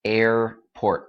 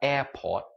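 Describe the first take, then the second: First: The R sounds are strongly pronounced. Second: The R sounds are dropped, sounding light. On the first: "anh Mỹ phải nói rất là mạnh" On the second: "không phải là airport. That's anh anh"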